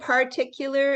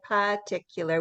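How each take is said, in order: First: The R sound is pronounced. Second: The R sound is left out, American style.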